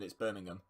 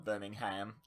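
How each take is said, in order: First: It is said the British way, ending in 'um'. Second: It is said the American way, ending in 'ham'. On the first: It names the city in England. "In England" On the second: It names the city in Alabama. "That is a place in Alabama"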